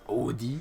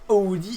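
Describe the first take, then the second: First: The D is pronounced as a clear d. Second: The D is softened into a dz sound. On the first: This imitates someone aiming at an international French. "c'est avec le D bien prononcé" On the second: This is the everyday local way of saying it. "En place de des Audi"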